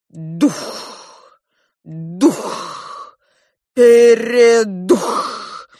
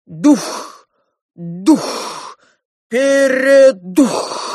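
First: Chanted, ritual wail, last word hugely drawn out; chanted, moan it loudly like entranced priests; chanted, slow incantation swelling to a loud wail; full-voiced groaning chant. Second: Loud chant with a long drawn-out finish; ritual shout. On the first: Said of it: "во весь голос застонали жрецы". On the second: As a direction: cry it out like priests summoning a spirit. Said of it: "дружно закричали они". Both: A narrator's reading.

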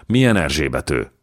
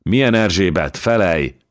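First: Understated shocked question; stunned groan. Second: Higher, louder insistent question; urgent demand. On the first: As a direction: ask it with a touch of shock, not yet forceful. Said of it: "nyögte Jankó sápadtan". (döbbent, visszafogott kérdés) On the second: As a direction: demand an answer, pressing hard. Megrázza a vállát, választ követel. (sürgető, hangos számonkérés) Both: A narrator's reading.

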